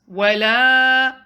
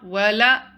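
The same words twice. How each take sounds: First: The lam vowel is held for two counts. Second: The lam vowel is cut short. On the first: The speaker calls it right. "Prolong the lam to two counts" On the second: The speaker calls it wrong. "It's not ولا"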